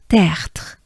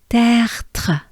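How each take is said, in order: First: The word is said quickly and shortened. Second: The word is said slowly and drawn out.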